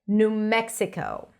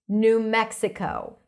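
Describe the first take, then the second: The two takes are said the same way.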